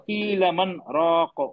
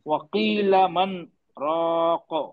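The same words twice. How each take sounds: First: It runs straight on with no pause. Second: A short silent stop without breathing comes after 'man'. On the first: The speaker calls it wrong. "जल्दी हो गया" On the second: The speaker calls it right. "थोड़ा दो हरकत के बराबर सांस को रोक के रखना है।"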